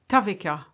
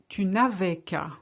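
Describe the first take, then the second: First: It is said fast, with tu and ne squeezed. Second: Every syllable is said, including the ne.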